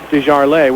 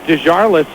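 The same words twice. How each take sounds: First: The name is said with a French-style pronunciation. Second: The name is said with an English-style pronunciation. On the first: "they're going to the French French pronunciation" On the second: "it was Desjardins in Knoxville"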